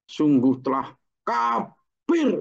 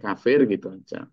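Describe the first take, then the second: First: It is said with a hateful, stressed tone. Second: It is said plainly, without hateful emphasis.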